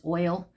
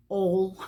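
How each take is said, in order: First: Said in the usual way. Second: "ol." said as one short vowel with no glide; one-syllable "ol." in a light Southern drawl. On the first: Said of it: "She says". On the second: Retold or imitated. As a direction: imitate a friend's Southern way of saying "ol.". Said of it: "She says "ol".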